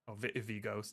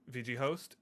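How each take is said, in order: First: The name is split as V, Ghost. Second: The name is split as V, G, host. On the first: The speaker calls it right. "It's probably more accurate" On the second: The speaker calls it wrong. "I'm just reading this in a weird way"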